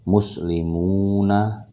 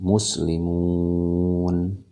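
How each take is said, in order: First: The word ends with a final vowel sound. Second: The word ends on the consonant n. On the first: The speaker calls it wrong. "tidak lagi muslimuna" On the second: The speaker calls it right. "tetapi muslimun. Nunnya dianggap sukun"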